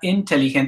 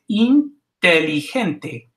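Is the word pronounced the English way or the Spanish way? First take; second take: English way; Spanish way. First: The word is pronounced with English-style sounds. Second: The word is pronounced with Spanish-style sounds. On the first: The speaker calls it wrong. "It's not inteligente" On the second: The speaker calls it right. "it's inteligente"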